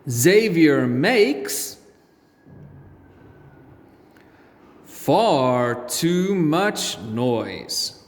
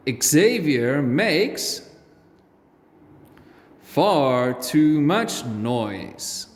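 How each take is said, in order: First: It is read at a slower, ordinary pace. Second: It is read at a quicker pace.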